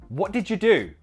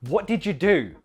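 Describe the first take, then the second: Both takes have the same delivery.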